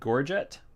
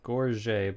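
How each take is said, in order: First: The word is pronounced an English way. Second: The word is pronounced the French way. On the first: The speaker calls it wrong. "I hear a lot of people pronounce this word incorrectly" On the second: The speaker calls it right. "It is a French word, right?"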